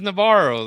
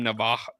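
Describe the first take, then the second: First: The name sounds like 'Navarro'. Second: The name sounds like 'Navajo'. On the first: This is what the name really is. The speaker calls it right. "But it's, it's Navarro though" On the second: This is how the commentators say it. The speaker calls it wrong. "They they call him Navajo"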